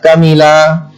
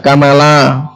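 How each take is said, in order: First: The m is followed by an i vowel. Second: The m is followed by an a vowel. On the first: "bisa kamila" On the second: "bisa kamala"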